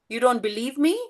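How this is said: The voice rises at the end, like a question. It is asked as a question. "you put a question mark in your tone"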